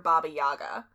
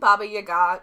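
First: The name is said with an American pronunciation. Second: The name is said with a Russian pronunciation. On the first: "It's just the American pronunciation" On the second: "that's the way the Russians pronounce it"

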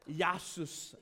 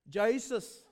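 First: The word begins with a Y sound. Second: The word begins with a J sound. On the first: "Some of you will pronounce it as Yasus" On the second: "the scientific name for the southern rock lobster is"

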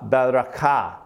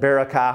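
First: It is said with a Hebrew pronunciation. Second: It is said with an American pronunciation.

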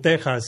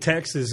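First: The name is said with a Spanish pronunciation. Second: The name is said with an English pronunciation. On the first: "but saying Texas is wrong" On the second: "saying Texas is correct"

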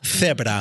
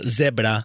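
First: The first sound is a 'th', Spain style. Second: The first sound is an 's', Latin American style.

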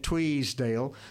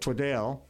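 First: An extra S sound is added to the name. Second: The vowel of the last syllable is an E sound. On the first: "put an S in it" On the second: "replace the A with an E"

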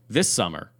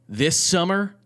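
First: It is read in a plain conversational voice. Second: It is read in a put-on performance voice.

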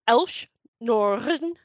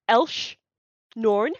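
First: The R is pronounced with a rolled trill. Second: The R is pronounced without a trill. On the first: The speaker calls it right. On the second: The speaker calls it wrong.

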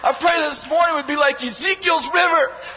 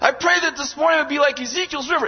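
First: It is said forcefully, with heavy emphasis. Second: It is said plainly, without extra emphasis.

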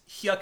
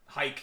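First: The name rhymes with yuck. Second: The name rhymes with bike. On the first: The speaker calls it wrong. "I'm saying the name wrong, but I'm going to say it wrong again anyway" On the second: The speaker calls it right. "Hike, yeah, yeah"

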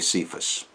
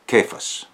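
First: The name is said with the common English pronunciation. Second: The name is said with the Aramaic pronunciation. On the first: "or you might say Cephas" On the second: "I like to use the Aramaic pronunciation"

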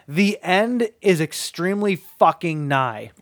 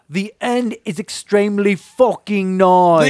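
First: It is said in the speaker's ordinary accent. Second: It is said in a put-on English accent.

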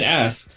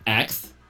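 First: The word ends with an 'sk' sound, like 'ask'. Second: The word ends with a 'ks' sound, like 'ax'. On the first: This is the expected pronunciation. "why aren't you saying ass?" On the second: This is how the speaker habitually said it. "I never realized I was doing this, but I would say ax"

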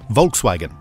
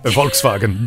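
First: It is said with an ordinary English pronunciation. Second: It is said with a put-on German pronunciation. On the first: "But I need to say Volkswagen" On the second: "oh, I know German"

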